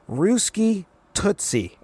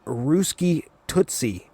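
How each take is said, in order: First: Higher, very slow cartoonish flirt; hammed-up Wheeler. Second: Slow, drawn-out mock flirt; mock Wheeler. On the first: Reviewer repeats Wheeler's line to Linka, higher and slower. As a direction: stretch it out even sillier, mocking. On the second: Wheeler flirting with Linka in the jet, slow teasing drawl. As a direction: drag out the pet name, teasing. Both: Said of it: "and Wheeler goes".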